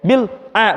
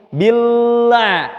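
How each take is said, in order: First: The word is broken apart with a short gap. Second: The word flows together without any gap. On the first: The speaker calls it wrong. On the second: The speaker calls it right. "bunyinya nyambung"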